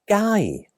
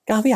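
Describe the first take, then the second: First: The word is shortened, dropping the f sound. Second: The word is said in full with the f sound. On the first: It is a casual way to ask. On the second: It is the standard way to ask.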